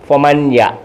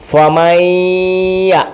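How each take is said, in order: First: The n is pronounced clearly before the y. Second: The n merges into a doubled nasal y. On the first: The speaker calls it wrong. "ഫമൻ യ എന്ന് പറയില്ല" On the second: The speaker calls it right. "പിന്നെ എങ്ങനെ?"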